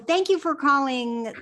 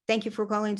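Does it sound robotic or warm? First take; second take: warm; robotic. First: It is said slowly and warmly. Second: It is said fast and robotic.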